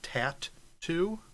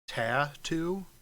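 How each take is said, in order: First: It is said as two separate parts, 'tat two'. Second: It is said as one smooth, ordinary word. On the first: It follows the spelling with two T's. The speaker calls it right. "we should be pronouncing it tat two because it's got the two T's" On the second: It is the usual way people say it. The speaker calls it wrong. "instead of tattoo"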